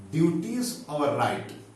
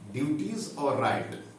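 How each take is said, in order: First: Teacher slowing down on duties और right; slow emphatic. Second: Said in the usual way. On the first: Shown as a demonstration. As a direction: spell out duties और right slowly for the class.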